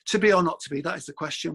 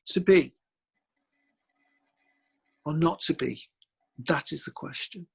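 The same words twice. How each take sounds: First: It is said quickly without dramatic pauses. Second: It is said slowly with dramatic pauses.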